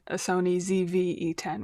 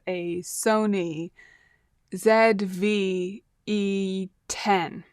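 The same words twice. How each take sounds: First: The letter Z is said the American way. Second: The letter Z is said in a non-American way.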